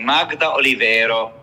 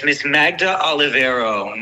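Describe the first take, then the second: First: "Magda Olivero" with Italian vowels and tapped r; Italian pronunciation. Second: Said in the usual way. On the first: Shown as a demonstration. Opera fan repeats the singer's name reverently, Italian pronunciation.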